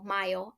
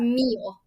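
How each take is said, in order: First: The first syllable sounds like 'my'. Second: The first syllable sounds like 'me'. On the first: The speaker calls it wrong. "I kept saying Mayo" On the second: The speaker calls it right. "So it's"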